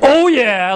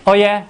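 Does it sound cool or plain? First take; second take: cool; plain. First: It is said coolly, with swagger. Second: It is said plainly, without attitude.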